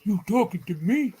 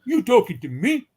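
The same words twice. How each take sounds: First: Tough-guy New York accent, pitched up; a movie gangster's New York challenge. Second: Louder, higher tough-guy New York accent. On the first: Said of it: "Can you do a New York accent?". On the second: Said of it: "try it again". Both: Shown as a demonstration.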